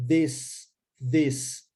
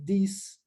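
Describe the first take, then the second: First: "this" with a short E sound and voiced TH; correct E vowel. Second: "this" said with an I vowel, the wrong way. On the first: Teacher models the correct "this" slowly. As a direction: say "this" like "dhes", tongue between teeth. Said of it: "a pronúncia correta é de". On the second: Teacher shows the common mistake in "this". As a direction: say "this" with a long I like "thees". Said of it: "E, não de I". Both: Shown as a demonstration.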